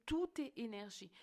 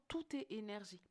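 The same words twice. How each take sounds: The two takes are said the same way.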